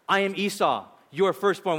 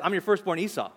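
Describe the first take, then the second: First: Weight falls on closing "firstborn"; emphasis on firstborn. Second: Closing "Esau" carries the weight; emphasis on Esau. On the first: Jacob deceiving his father, stressing "firstborn". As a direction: land firmly on "firstborn" at the end. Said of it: "The emphasis Jacob is making here is". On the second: Real brother announcing himself, stressing "Esau". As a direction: land on the name "Esau" at the end. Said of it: "The emphatic is at the end". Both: Shown as a demonstration.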